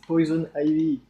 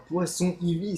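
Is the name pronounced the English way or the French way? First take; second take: English; French. First: The first word is pronounced like English 'poison'. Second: The first word is pronounced like French 'poisson'. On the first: The speaker calls it right. "c'est Poison Ivy ... dis-le en anglais" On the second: The speaker calls it wrong. "c'est pas Poisson Ivy"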